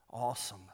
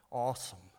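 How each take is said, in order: Both takes have the same delivery.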